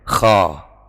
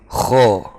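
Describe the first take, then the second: First: The vowel is a plain, light a sound. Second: The vowel is slightly darkened, between a and o. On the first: The speaker calls it wrong. "itu sudah hampir tepat, tinggal ditambahi, diberatkan sedikit" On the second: The speaker calls it right. "diberatkan sedikit. Kho, kho, sha, gha, do, begitu"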